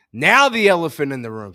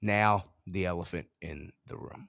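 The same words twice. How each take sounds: First: Loud, with a falling end; loud announcement with a falling finish. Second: Soft and low, the end rising; quiet low repeat with a rising end. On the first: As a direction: boom it out to the audience. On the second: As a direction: murmur it back to yourself. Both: Real, not acted.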